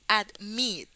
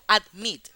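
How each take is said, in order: First: The stress is on the last syllable. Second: The stress is on the first syllable. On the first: The speaker calls it right. "Se dice admit. La I es la que sube" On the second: The speaker calls it wrong. "Yo no digo admit"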